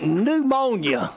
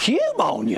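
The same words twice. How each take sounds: First: "pneumonia" starting on N, as new-MOAN-ya; silent P. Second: "pneumonia" with a spoken P, as pyoo-MOAN-ya; sounded P. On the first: Preacher quoting the standard word, "pneumonia" with silent P. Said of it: "they call it pneumonia". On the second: Preacher mocking spelling, "pneumonia" with the P pronounced. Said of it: "This is silent". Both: Shown as a demonstration.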